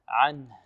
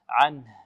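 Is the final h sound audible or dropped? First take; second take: audible; audible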